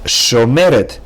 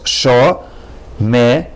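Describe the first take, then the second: First: Said in the usual way. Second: "Sho-me-ret" slowly in three clear beats; sho, me, ret, one at a time; syllable by syllable. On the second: Shown as a demonstration. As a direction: break "Sho-me-ret" into three slow parts. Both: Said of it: "has three syllables".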